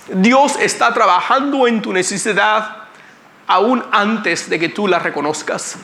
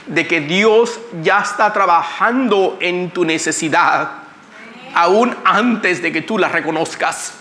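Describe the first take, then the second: First: Higher, rising preacher emphasis on "Dios"; emphatic repeat. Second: Said in the usual way. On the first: Shown as a demonstration. Preacher presses the point on the church, emphatic. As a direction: drive "Dios" home, then land "aún" slowly.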